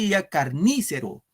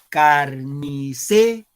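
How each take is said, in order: First: The stress falls on the syllable ni. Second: The stress falls on the syllable ce. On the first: The speaker calls it wrong. "Si fuera en ni, ... No decimos carnícero" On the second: The speaker calls it right. "en se, claro"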